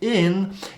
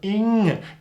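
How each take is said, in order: First: The ending finishes with a plain n sound. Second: The ending finishes with a blended ng sound. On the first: The speaker calls it wrong. "we know that it's not in" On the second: The speaker calls it right. "it's somewhere in between n and g"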